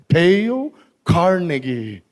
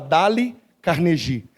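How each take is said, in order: First: The name is said with English-style sounds. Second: The name is read with Portuguese-style sounds. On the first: This is how the speaker later learned it is said. The speaker calls it right. "depois eu aprendi que era" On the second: This is how the speaker used to say it. The speaker calls it wrong. "E eu falava"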